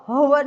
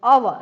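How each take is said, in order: First: "હવર" with an audible H at the start; wrongly sounded H. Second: "અવર" starting straight on the vowel, loud; silent H. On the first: Teacher showing what not to say, "હવર" with H sounded. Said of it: "હવર ન બોલાય આને". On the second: Teacher showing where the word starts, "અવર" with silent H. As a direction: say "અવર" firmly without any H. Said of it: "અહીંથી બોલે". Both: Shown as a demonstration.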